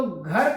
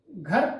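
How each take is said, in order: First: Said in the usual way. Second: "घर" drawn out in imitated foreign-accented Hindi; mock foreign accent on "घर"; foreign-accented mispronunciation. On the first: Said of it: "accent का प्रभाव है". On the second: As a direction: say "घर" slowly, as a foreign-accented reader would. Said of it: "accent का प्रभाव है विदेशी".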